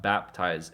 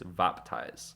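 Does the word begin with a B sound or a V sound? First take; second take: B sound; V sound. First: The word begins with a B sound. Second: The word begins with a V sound. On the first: "it's not baptize" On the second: "the B is pronounced like a V"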